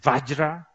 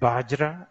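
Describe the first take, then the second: First: The word begins with a v sound. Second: The word begins with a b sound. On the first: This is how people in India say it. "Indians, they say Vajra" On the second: This is how people in Nepal say it. "Nepali people say Bajra"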